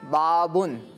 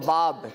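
First: The word ends with an added n sound. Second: The word ends without an added n sound. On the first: "اسے ہم اس کو بغیر تنوین کے پڑھیں گے" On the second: "بغیر تنوین کے پڑھیں گے، آخر کے جو حرف ہے اس کو سائلنٹ کر دیں گے"

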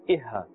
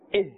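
First: An extra vowel is added after the h. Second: The word ends cleanly on the h sound. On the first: The speaker calls it wrong. "If we put too much of emphasis here, it may sound like we're adding another harakat" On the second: The speaker calls it right. "This is how we must pronounce it"

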